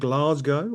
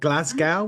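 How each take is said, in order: First: Glasgow is said with a British pronunciation. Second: Glasgow is said with an American pronunciation.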